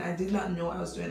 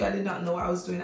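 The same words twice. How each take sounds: First: Not leaned on for emphasis; stress on not. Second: Said in the usual way. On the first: Shown as a demonstration. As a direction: press the not in "I did not know". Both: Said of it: "when I tell you".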